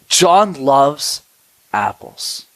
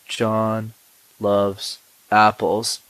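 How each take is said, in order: First: It mixes quick and slow parts. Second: It is said at one even pace.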